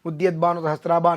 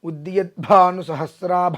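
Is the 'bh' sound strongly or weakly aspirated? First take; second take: weakly; strongly. First: The 'bh' is pronounced with weak aspiration. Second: The 'bh' is pronounced with strong aspiration. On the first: The speaker calls it wrong. "అని చెప్పేస్తారు" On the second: The speaker calls it right. "ఒత్తు పలకవలసించుట"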